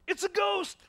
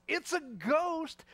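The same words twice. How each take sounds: First: High, loud panicked shout; terrified cry. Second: Slow, higher, mocking repeat of the line; mocking quote. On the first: Acted. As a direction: scream it like you've seen a ghost. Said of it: "they cried out". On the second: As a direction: drag it out to show how silly it is.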